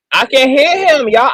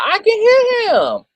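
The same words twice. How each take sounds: First: Insistent. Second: Much higher, slow and stretched; high-pitched frustrated insisting; exasperated squeal. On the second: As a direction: wail it in disbelief. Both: Real, not acted. Insists she hears the bishop.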